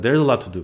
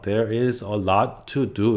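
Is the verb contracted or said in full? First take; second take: contracted; full. First: The verb is contracted into there's. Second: The verb is said in full as there is. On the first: The speaker calls it right. "이런 것들 잘 들어보시면서" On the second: The speaker calls it wrong. "이렇게 발음 절대 안 하거든요"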